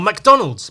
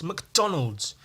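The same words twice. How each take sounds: First: McDonald's with a full "Mac" at the start; Irish Mac prefix. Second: McDonald's with a reduced "Muk" at the start; Scottish Mc prefix. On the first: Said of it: "typically I think Irish is Mac". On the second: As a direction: say McDonald's as "muk-DON-alds". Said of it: "and Scottish is Mc". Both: Shown as a demonstration.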